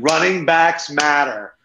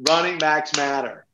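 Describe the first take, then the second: First: Slow slogan, punch backs; slogan stress. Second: Softer echo, stress on running; softer repeat. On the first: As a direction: announce it like a rallying cry. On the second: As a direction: repeat it quietly to yourself. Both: Shown as a demonstration. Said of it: "very excited right now".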